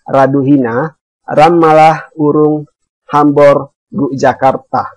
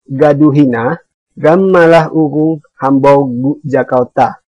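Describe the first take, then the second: First: The words begin with an r sound. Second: The words begin with a g sound. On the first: "mengganti bunyi ra ini dengan bunyi ra" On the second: "kali ini kita mengganti bunyi ra dengan bunyi ga"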